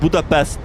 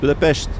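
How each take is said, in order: First: The name is pronounced the usual English way. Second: The name is pronounced the native Hungarian way. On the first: The speaker calls it wrong. "It's not Budapest" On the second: The speaker calls it right. "That's how Hungarians say it"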